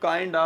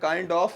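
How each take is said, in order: First: The word 'of' shrinks to a short vowel. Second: The word 'of' is said in full.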